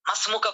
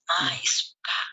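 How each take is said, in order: First: The two words run together, dropping a sound. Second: The two words are kept separate and full. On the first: The listener might not understand it. "মাসমুকা পড়তো না" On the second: The listener can follow it easily. "উনি কি বলতো? মা ইসমুকা"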